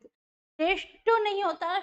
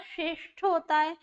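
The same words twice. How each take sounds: First: नहीं lifted high and slow, rising; stress on NAHIN. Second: Said in the usual way. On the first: Shown as a demonstration. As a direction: lean on नहीं to reject the wrong form.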